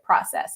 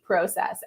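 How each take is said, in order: First: The word is said in a non-Canadian accent. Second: The word is said in a Canadian accent. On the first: "I am not going to pronounce it process" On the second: "It is going to be process"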